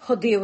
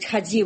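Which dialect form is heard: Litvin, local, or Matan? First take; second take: Matan; Litvin. First: First vowel is o, then a hard d. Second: First vowel is a, then a soft dz. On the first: "і матаны, якія гавораць" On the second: "І ліцвіны, якія гавораць"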